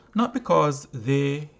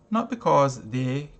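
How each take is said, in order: Both takes have the same delivery.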